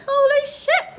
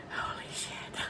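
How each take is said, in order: First: Very high, louder stunned squeal; high-pitched shock. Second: Whispered shock, barely voiced; stunned whisper. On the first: Retold or imitated. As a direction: squeal it in disbelief. Same reaction, voiced high. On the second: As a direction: breathe it out under your breath, stunned. First stunned reaction to news.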